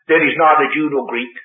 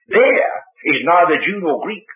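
First: The word 'there' is unstressed and quick. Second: The word 'there' is stressed and prominent. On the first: It simply states that no distinction exists. The speaker calls it wrong. "Don't read it like this" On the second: In that particular place, no distinction exists. The speaker calls it right. "This means place. The place where"

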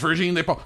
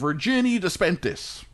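First: The surname is said with French sounds, no t. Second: The surname is said with English sounds and a t. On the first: The speaker calls it right. "That's how you say it" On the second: The speaker calls it wrong. "If you're an American, you say this lady's name"

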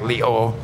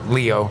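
First: The name is pronounced in a Thai style. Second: The name is pronounced in an English style.

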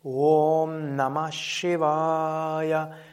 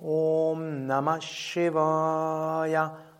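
First: It is spoken aloud in full voice. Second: The same.

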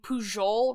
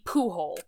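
First: The name has the Catalan pronunciation. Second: The name has the standard Spanish pronunciation. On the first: "I'm using the Catalan pronunciation of his last name" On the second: "pronounced in a normal Spanish accent would be Pujol"

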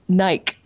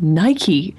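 First: The word is said the Australian way. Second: The word is said the American way. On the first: This is how it is said locally. "in Australia, it's Nike" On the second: The speaker has picked up American habits. "you have become Americanized"

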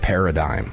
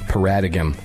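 First: The word is said in its usual way. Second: The word is read out as it is spelled.

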